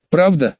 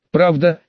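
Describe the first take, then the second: First: Mildly exclaimed, hopeful question. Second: Said in the usual way. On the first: A narrator's reading. Younger sister to her would-be employer, mild exclamation. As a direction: ask it with a touch of eagerness. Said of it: "воскликнула младшая". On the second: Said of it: "кивнул в ответ Лушен".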